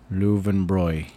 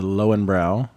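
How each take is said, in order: First: It is said with a German pronunciation. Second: It is said with an Americanized pronunciation. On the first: The speaker calls it right. "But it's called Löwenbräu" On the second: The speaker calls it wrong. "the Americans have been saying it wrong all of our life"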